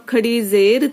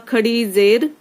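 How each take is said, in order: Both takes have the same delivery.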